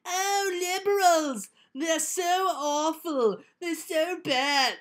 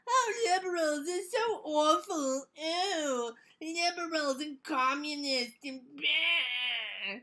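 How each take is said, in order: First: High, slow hammy villain voice; mustache twirling villain. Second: High, slow sneering villain drawl; mustache twirling villain. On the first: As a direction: ham up a sneering cartoon villain. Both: Retold or imitated. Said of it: "he sounds like an evil, mustache-twirling villain".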